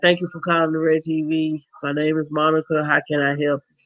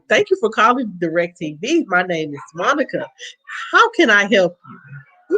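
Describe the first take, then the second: First: It sounds flat and unenthusiastic. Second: It sounds warm and cheerful.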